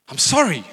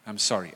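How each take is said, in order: First: Loud, high, snapped mock apology; grudging outburst of sorry; insincere apology. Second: Low, unforced, sincere sorry; understated real-sounding apology; simple apology. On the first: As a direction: throw it out forcefully, without regret. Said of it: "this is also not an apology". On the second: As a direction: say it simply and leave it. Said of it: "The simpler, the better". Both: Shown as a demonstration.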